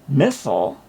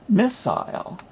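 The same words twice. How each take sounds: First: The word has an American pronunciation. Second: The word has a British pronunciation. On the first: The speaker calls it wrong. "most people in the me- media say missile instead of the correct pronunciation" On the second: The speaker calls it right. "correctly used in British English"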